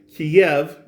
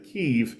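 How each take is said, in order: First: The name is said with the Russian pronunciation. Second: The name is said with the Ukrainian pronunciation. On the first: "Kiev is a Russian pronunciation of the city's name" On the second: "Kiev is the actual Ukrainian pronunciation"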